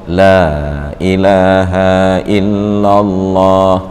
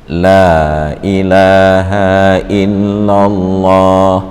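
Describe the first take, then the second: The two takes are said the same way.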